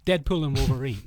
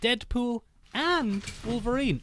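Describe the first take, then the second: First: It is said as one single title. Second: It is split like two separate titles.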